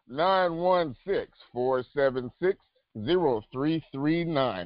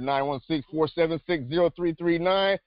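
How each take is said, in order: First: The number is said slowly. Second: The number is said fast.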